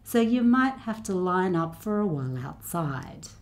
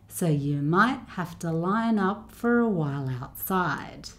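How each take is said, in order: First: The sentence is spoken at a medium pace. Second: The sentence is spoken at a slow pace. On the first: "a little bit faster each time" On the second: "I'll go a little bit faster each time"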